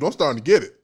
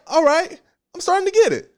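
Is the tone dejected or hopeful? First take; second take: dejected; hopeful. First: It sounds dejected and worried. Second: It sounds hopeful and relieved. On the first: The soul is filled with doubt. "you see the tone even changes" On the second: The soul is filled with faith. "my soul is saying, oh, okay, I'm starting to see"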